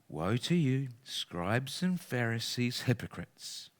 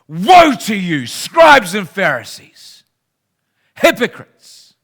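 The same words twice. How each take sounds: First: It is said in a soft, gentle tone. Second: It is said in an angry, forceful tone.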